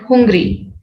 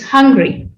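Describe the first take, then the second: First: The first vowel sounds like 'oo'. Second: The first vowel sounds like 'uh'. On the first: The speaker calls it wrong. "It's not hungry" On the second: The speaker calls it right. "It's hungry"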